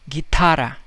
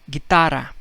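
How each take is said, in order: No difference in how they are said.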